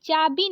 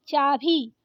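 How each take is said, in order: First: चाबी with a plain b; wrong unaspirated ब. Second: चाभी with a puffed bhi; correct aspirated भ. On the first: Teacher showing the wrong form, चाबी with plain b. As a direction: say चाबी without a puff on bi. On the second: Teacher giving the correct form, चाभी with aspirated bhi. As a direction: push breath through भ in चाभी. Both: Shown as a demonstration. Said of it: "चाबी नहीं".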